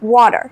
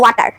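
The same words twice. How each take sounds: First: The t sounds like a soft d. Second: The t sounds like a clear, hard t. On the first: "টি এর সাউন্ডটা অনেক সময় ওরা softly একটু ডি বানায় ফেলে" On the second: "আমরা বলবো ওয়াটার"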